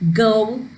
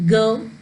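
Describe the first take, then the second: First: The vowel glide is strongly exaggerated. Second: The vowel glide is light and subtle. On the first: The speaker calls it wrong. "You don't have to overdo this like go" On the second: The speaker calls it right. "you can do it in a very subtle way"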